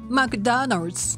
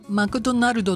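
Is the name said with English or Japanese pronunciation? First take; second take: English; Japanese. First: It has strong beats on Mc and Da. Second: It has flat, even Japanese syllables. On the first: The speaker calls it right. "マクとダを大きく言うんですね。" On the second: The speaker calls it wrong. "これでは通じないんですね。"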